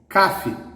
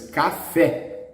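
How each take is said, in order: First: The stress is on the first syllable. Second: The stress is on the last syllable. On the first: The speaker calls it wrong. "it must be stressed in the penultimate" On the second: The speaker calls it right. "The stress is in the last syllable"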